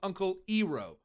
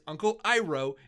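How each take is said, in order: First: The name is said the altered way. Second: The name is said the original way. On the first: This is how the movie says it. The speaker calls it wrong. "good old Uncle Iroh" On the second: This is how the show says it. The speaker calls it right. "which is Uncle Iroh in the show"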